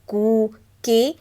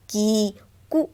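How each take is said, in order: First: कु stretched slowly into a long ū; long vowel. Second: कु said short and quick; short vowel. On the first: Teacher slowly shows children the long कू. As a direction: draw out कु slowly as कू. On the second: Teacher shows children the short कु. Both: Shown as a demonstration. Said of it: "यहाँ पे दिया है".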